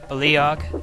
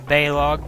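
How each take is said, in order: First: The name is said with three syllables. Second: The name is said with two syllables. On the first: The speaker calls it right. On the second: The speaker calls it wrong.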